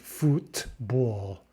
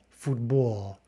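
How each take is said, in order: First: The middle consonant is unvoiced, sounding like t. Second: The middle consonant is voiced, sounding like d. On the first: The speaker calls it wrong. "Instead of football" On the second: The speaker calls it right. "instead we're becoming like a voiced consonant"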